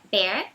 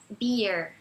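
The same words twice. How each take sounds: First: "bear" with an open É; "bear" with EH, not EE; open accented E. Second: "beer" as EE gliding to a short eh; "beer" with EE, not open EH; iê sound. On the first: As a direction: say "bear" with a wide EH, rising. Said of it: "como se fosse com acento agudo no E". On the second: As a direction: say "beer" like iê, falling. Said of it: "beer é como se fosse iê". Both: Shown as a demonstration.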